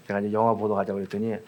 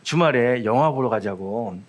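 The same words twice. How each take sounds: First: Quick, rushed retelling with a rising 영화; fast. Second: Slowed down, drawing out 영화; lingering slowly over each word. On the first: Pastor quickly restating his movie invitation, fast and rushed. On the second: Pastor recalling asking the sister to a movie, slow and drawn out. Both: Retold or imitated.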